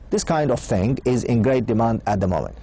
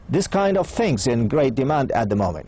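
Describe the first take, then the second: First: The words 'thing is' are said in full. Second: The words 'thing is' are contracted to 'thing's'.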